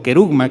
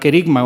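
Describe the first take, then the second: First: The second vowel is a 'u' sound. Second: The second vowel is an 'i' sound. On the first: "que algunos la pronuncian con u" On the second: "O con i"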